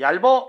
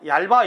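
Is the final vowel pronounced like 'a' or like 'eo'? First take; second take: eo; a. First: The final vowel is a mid 'eo' sound. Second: The final vowel is an open 'a' sound. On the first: The speaker calls it wrong. "얇어 이러면 안 된다는 거지" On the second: The speaker calls it right. "얇아 이래야지"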